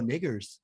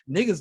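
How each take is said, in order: First: The word ends in a full 'er' sound. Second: The word ends in a reduced 'a' vowel. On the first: It keeps a distance and is not familiar. The speaker calls it right. "I need you to say all the syllables" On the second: It sounds too familiar. The speaker calls it wrong. "no, no, no"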